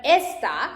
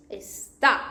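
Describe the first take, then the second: First: Esta, stressed on "es"; stress on first syllable. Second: Está, stressed on "tá"; stress on last syllable. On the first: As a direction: hit "es" and let "ta" follow in esta. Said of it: "like this one". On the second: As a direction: hold back "es", hit "tá" in está. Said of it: "Because has this accent". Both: Shown as a demonstration.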